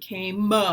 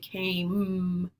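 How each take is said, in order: First: An extra uh vowel follows the final m. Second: The word ends cleanly on the m sound. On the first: The speaker calls it wrong. "you're not saying came" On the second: The speaker calls it right. "It's just a mm, there's no uh at the end"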